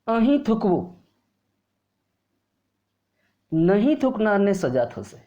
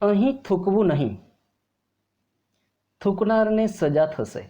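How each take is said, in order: First: The pause comes before the word 'nahin'. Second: The pause comes after the word 'nahin'. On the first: Spit here; those who do not spit will be punished. The speaker calls it wrong. "अगर विराम मैं नहीं के आगे लेता हूं" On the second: Do not spit here; spitters will be punished. The speaker calls it right. "अब नहीं के बाद मैं विराम लेता हूं"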